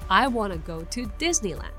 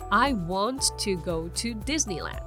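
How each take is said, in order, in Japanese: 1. 'want to' は 'wanna' に短縮されます。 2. 'want to' は完全に発音されます。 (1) "それをかっこよく言うと" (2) "本来だったら"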